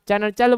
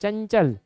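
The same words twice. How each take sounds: First: चंचल said as "chanachal", with a full na sound in the middle; wrong pronunciation. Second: चंचल said as "chanchal" with a nasal n, no extra vowel; correct pronunciation. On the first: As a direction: stretch चंचल into cha-na-chal, the wrong way. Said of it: "चंचल बोलोगे तो गलत हो जाएगा". (चंचल को "चनचल" बोलो, बीच में पूरा न) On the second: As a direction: say चंचल cleanly, cha-n-chal. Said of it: "चंचल बोलोगे ना तो चंचल में इया आएगा". (चंचल को सही बोलो, अनुस्वार के साथ "चंचल") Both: Shown as a demonstration.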